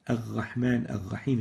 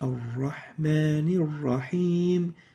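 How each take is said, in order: First: The r is said as a throaty gh sound. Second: The r is said as a tongue-tip r. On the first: The speaker calls it wrong. "replacing the ra with a ghain" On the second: The speaker calls it right. "the proper way of pronouncing it"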